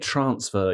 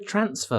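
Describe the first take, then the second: First: It is said with a southern English vowel. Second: It is said with a northern English vowel. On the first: "you don't say transfer" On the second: "You say transfer"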